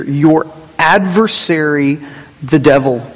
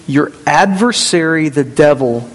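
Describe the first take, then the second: First: Slow, weighty stress on "adversary", then "the devil" set apart after a pause; emphatic. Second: Said in the usual way. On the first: Shown as a demonstration. Pastor stressing the verse to his congregation, slow and emphatic. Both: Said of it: "He's putting emphasis here".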